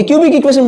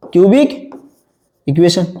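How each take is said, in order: First: Said in the usual way. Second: "cubic", long pause, "equation"; word by word. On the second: Shown as a demonstration. Teacher repeats a new term for class, with a long gap. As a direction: hand over the term one separate word at a time.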